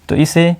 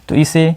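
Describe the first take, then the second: Both takes have the same delivery.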